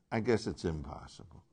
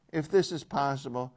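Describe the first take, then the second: First: Low, soft, falling away on "impossible"; resigned acceptance. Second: "possible" held up, left open; raised pitch, "possible" left hanging; hopeful asking. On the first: Teacher tracing Jesus' shift, quietly resigned. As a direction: drop the voice and concede "impossible". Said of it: "He's moving toward obedience". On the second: Teacher tracing Jesus' shift, tentative raised "possible". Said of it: "He's moving from". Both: Shown as a demonstration.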